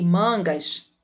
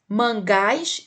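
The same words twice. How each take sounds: First: Slow "mangas" said MAN-gas; stress on first syllable. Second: Slow "mangás" said man-GÁS; stress on last syllable. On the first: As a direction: put the weight on MAN in "mangas". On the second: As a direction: land on the final syllable of "mangás". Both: Shown as a demonstration. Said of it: "leia os pares de palavras".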